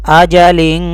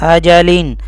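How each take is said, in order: The two takes are said the same way.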